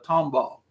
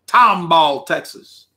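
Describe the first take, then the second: First: Said in the usual way. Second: Tomball, Texas with a lightly stretched Texas drawl; a hint of a Texas drawl on Tomball. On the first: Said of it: "That's how they say it". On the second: Shown as a demonstration. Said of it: "That's how they say it with a drawl".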